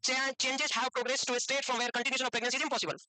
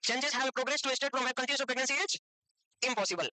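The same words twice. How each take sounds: First: Reads the definition out slowly, word by word; slow, even reading of the textbook line. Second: Dictated slowly, a pause before impossible; slow dictation. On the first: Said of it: "तो उसमें भी word impossible था". (धीरे धीरे परिभाषा पढ़ना) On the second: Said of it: "लिख लेना डेफिनेशन". (धीमी डिक्टेशन, impossible से पहले रुककर) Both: Shown as a demonstration.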